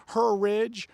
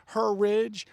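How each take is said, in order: The two takes are said the same way.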